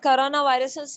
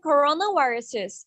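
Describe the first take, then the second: First: The R sound is weak and soft. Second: The R sound is strong and clear. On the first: The speaker calls it wrong. "No, it's not like that" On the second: The speaker calls it right. "R को R पड़े. जितना strong पढ़ेंगे"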